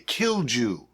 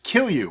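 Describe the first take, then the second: First: The second syllable begins with a 'j' sound. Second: The second syllable begins with a 'y' sound. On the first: The speaker calls it wrong. "A lot of people might say Kilju" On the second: The speaker calls it right. "it's actually pronounced Kill You"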